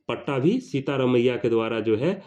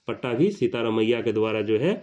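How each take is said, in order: Both takes have the same delivery.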